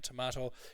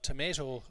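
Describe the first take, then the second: First: It is said with a British pronunciation. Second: It is said with an American pronunciation. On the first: "is British and Irish" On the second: "is for America"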